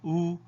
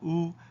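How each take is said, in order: No difference in how they are said.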